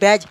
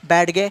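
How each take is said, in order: First: No separate d sound is said before the g. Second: A separate d sound is said before the g. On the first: "या फिर बैज" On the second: "अगर मैं इसको ऐसे पढ़ना शुरू कर दूं"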